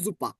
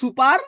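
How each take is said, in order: First: The word starts with a z sound. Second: The word starts with an s sound. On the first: This is the German pronunciation. "জার্মানিতে বলে জুপা" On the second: This is the English pronunciation. "আমরা ইংরেজিতে বলি সুপার"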